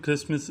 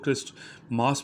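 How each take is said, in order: First: It is said as one word without a 't'. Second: It is said as two parts with a 't'. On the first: This is the way learners should say it for now. "आपने इसको फ़िलहाल जो है ऐसे ही बोलना है" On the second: This is a newer trendy way of saying it. "आजकल जो है एक न्यू ट्रेंड में इसको क्रिस्ट मास भी कहा जा रहा है"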